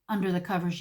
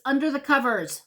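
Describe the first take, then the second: First: Said in the usual way. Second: "under the covers" pitched high and punched; "under the covers" raised and insistent; indignant emphasis. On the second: Real, not acted. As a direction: hit "under the covers" in outraged disbelief. Indignant emphasis, then repeated lower.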